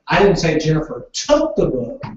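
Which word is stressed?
took. The word took carries the stress. The book was borrowed, not taken. "Jennifer borrowed the book"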